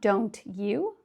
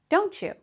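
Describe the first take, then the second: First: The t and y sounds stay separate. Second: The t and y merge into a ch. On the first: The speaker calls it wrong. "not don't you" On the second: The speaker calls it right. "but don't you"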